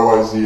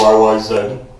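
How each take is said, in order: First: The last letter is said the American way, zee. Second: The last letter is said the Canadian way, zed.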